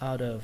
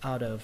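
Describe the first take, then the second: No difference in how they are said.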